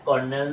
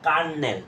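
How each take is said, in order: First: The first vowel sounds like 'or'. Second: The first vowel sounds like 'ar'. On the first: The speaker calls it wrong. "আসলে এটা কর্নেল না" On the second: The speaker calls it right. "এটা হবে কি কার্নেল"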